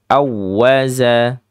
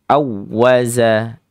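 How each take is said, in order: First: The middle consonant is a z sound. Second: The same.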